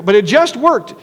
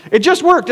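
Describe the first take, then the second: First: Said in the usual way. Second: "worked" lifted higher, landing with a falling finish; emphatic repeat. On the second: Real, not acted. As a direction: hit "worked" higher, like you still can't believe it. Repeating the surprise of success.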